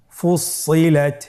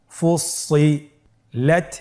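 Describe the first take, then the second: First: ফুসিলাত as one connected word, doubled s held; syllables joined. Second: ফুসিলাত very slow, with a gap before লাত; syllables separated. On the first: Teacher rejoins the word for learners, connected recitation. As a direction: blend ফুসিলাত without gaps. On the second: Teacher leads learners through parts, slow separated syllables. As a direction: hold the parts of ফুসিলাত apart. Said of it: "পৃথক করে আমরা উচ্চারণ করব". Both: Shown as a demonstration.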